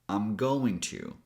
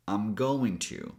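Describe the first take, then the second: First: I am is contracted; going to is full. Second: I am is contracted; going to is full.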